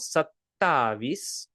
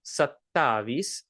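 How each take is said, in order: No difference in how they are said.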